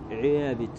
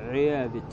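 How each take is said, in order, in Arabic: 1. الحركة الطويلة تميل نحو صوت 'ee'. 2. الحركة الطويلة تميل نحو صوت 'ee'.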